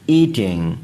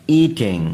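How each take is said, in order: Both takes have the same delivery.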